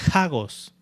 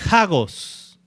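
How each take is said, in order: First: Hagos repeated softer, AH-gos, stressed on the A; Greek word repeated. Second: Hagos said slowly as AH-gos, stress on the first A; Greek word pronounced. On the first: Preacher repeating the Greek word for listeners, quiet careful pronunciation. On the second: Preacher teaching the congregation a Greek word, careful pronunciation. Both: Shown as a demonstration. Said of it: "así se pronuncia esa palabra griega".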